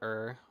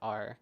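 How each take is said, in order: First: The syllable sounds like the word 'er'. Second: The syllable sounds like the letter R. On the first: The speaker calls it wrong. "not er" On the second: The speaker calls it right. "like R"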